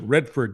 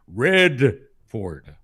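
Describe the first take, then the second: First: The name is said plainly, without extra weight. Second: The syllable 'Red' is said with heavy emphasis. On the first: "you don't pronounce it Redford" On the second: "Emphasize the red because she's a commie"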